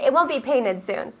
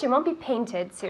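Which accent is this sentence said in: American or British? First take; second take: American; British. First: It is said in an American accent. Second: It is said in a British accent. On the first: "Lovely American accent over here" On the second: "And British"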